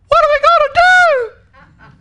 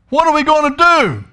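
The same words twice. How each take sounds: First: It is said in a scared, panicked voice. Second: It is read in a plain, calm way.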